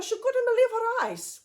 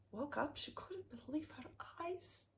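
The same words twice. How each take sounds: First: Said in the usual way. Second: Hushed whisper of amazement. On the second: A narrator's reading. Narrator marvels at the gold-filled room, whispering. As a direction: breathe it out in a soft whisper.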